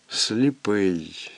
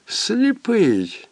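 First: Said in the usual way. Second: Сліпий lifted high then falling; rising emphasis. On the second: A narrator's reading. Narrator echoing the word, higher and stressed. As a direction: throw сліпий up high and let it fall.

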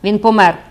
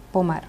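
First: Loud, emphatic outburst; exclaiming. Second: Cold. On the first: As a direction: blurt it out loudly. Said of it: "вигукнув священик". (гучний вигук) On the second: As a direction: say it coldly, without outcry. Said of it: "промовила вона, все ще холодна". (холодно й стримано) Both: A narrator's reading.

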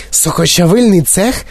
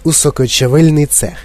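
First: Higher, rising startled question; shocked echo. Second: Said in the usual way. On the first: A narrator's reading. Mother recoils at the juicing room, shocked echo. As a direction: echo “Сокочавильний цех” in alarm, tune rising. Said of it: "сахнулася пані Борегерд". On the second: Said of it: "звелів він їм".

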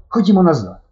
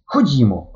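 First: Голосніше, вище, наполегливо; рішуче кличе назад; рішучий заклик. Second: Said in the usual way. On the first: A narrator's reading. Стьопка наполягає повернутися. (Стьопка голосно, рішуче кличе друга назад) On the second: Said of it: "промовив Стьопка".

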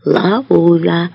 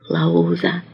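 First: Resounding but restrained call; loud voice. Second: Very soft, low whisper. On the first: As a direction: repeat it out loud in a full voice. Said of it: "повторює він гучним голосом". (гучним голосом, стримано) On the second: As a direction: whisper it with the lips alone. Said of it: "шепоче він самими губами". (шепіт самими губами) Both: A narrator's reading.

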